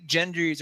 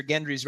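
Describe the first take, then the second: First: "Gendry's" with a soft G, like J; first G of "Gendry's" as in gem; soft G slip. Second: "Gendry's" with a hard G; first G of "Gendry's" as in gift; hard G correction. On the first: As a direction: say "Gendry's" as if spelt Jendry's. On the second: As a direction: say "Gendry's" starting like get. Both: Shown as a demonstration. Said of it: "or Gendry's rather".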